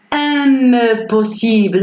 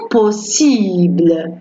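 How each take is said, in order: First: "impossible" with the M sounded, em-possible; wrong, M pronounced. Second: "impossible" with a nasal first vowel and no M sound; correct nasal vowel. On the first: Teacher shows students the wrong way, pronouncing the M in "impossible". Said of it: "on prononce pas le M". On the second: Teacher shows students the right way: nasal vowel, silent M in "impossible". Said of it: "On dit". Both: Shown as a demonstration.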